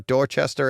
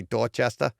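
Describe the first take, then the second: First: Said in the usual way. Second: "Dorchester" said the Boston way, with dropped r's; Boston accent. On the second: Shown as a demonstration. Podcaster showing how locals say the town name, Boston accent.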